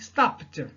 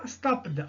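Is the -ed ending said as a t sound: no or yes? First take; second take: yes; no. First: The ending is pronounced as a t sound. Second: The ending is not pronounced as a t sound. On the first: The speaker calls it right. "On dit stopped" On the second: The speaker calls it wrong. "et non pas stopped"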